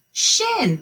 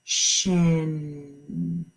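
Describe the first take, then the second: First: "Shin" high and quick; fast excited reveal. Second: Slow blend. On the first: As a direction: pop out "Shin" as the answer. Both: Shown as a demonstration.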